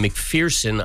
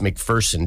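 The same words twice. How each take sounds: First: The middle syllable sounds like the word 'fear'. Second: The middle syllable does not sound like 'fear'. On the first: The speaker calls it wrong. "when I was calling him McPherson" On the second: The speaker calls it right. "said it's McPherson, Dan"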